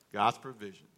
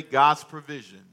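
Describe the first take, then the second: First: God's provision repeated softer and lower; quiet lower echo. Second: God's provision, slow, loud and emphatic on God's; slow emphatic declaration. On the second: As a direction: announce God's provision with weight. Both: Shown as a demonstration. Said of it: "God's provision (said twice)".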